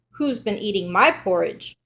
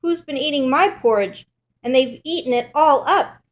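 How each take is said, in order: First: Lightly voiced mother bear; a hint of mama bear, stressing "my". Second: Higher, louder little bear voice; upset bear cub, pitched up and indignant; Baby Bear. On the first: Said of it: "Mother Bear says". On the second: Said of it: "Baby Bear looks at his bowl". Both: A narrator's reading.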